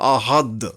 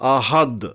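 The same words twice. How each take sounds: No difference in how they are said.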